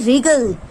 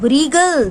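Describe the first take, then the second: First: The word starts with no W sound. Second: The word starts with a W sound. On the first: The speaker calls it right. "this is only wriggle" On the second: The speaker calls it wrong. "This is not wriggle"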